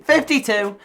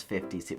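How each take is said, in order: First: Higher, louder restatement; mock-emphatic correction; loud repeat. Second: Said in the usual way. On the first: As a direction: punch it out louder for comic effect. Repeats age, then louder.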